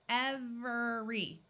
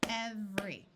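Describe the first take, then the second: First: The word is said with three syllables. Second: The word is said with two syllables. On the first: This is the careful pronunciation. "with three syllables" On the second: This is the usual everyday pronunciation. "it's spoken as every, with two syllables"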